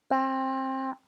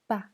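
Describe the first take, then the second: First: The pitch stays high and level. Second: The pitch is short, light and unstressed. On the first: "Premier ton" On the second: "Et le ton neutre"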